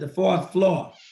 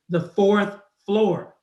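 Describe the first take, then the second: First: The R sounds in fourth floor are dropped. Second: The R sounds in fourth floor are pronounced. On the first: The speaker is not paying attention to speech. "Notice they said it without the R" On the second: The speaker is paying careful attention to speech. "So the second time they said it, they said it with the R"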